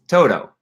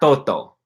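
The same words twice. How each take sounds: First: It is pronounced with an American English accent. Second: It is pronounced with Spanish-like sounds. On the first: The speaker calls it right. "It's Toto" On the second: The speaker calls it wrong. "It's not Toto"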